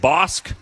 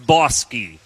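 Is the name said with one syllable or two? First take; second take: one; two. First: The name is said as one syllable. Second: The name is said as two syllables. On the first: The speaker calls it wrong. "I guess I said Bosk" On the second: The speaker calls it right. "it's Bosky, you idiot"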